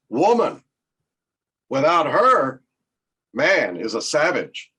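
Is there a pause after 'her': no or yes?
yes. There is a pause after 'her'.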